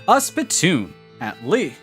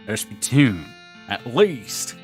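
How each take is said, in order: First: It is said in his normal voice. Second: It is said in a put-on cowboy voice.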